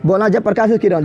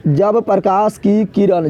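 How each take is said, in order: First: Said in the usual way. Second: Slow dictation. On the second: Shown as a demonstration. Teacher dictating the definition to the class, slow and deliberate. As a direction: spell out जब प्रकाश की किरण slowly, word by word. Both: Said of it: "तो क्या बोलेगा?".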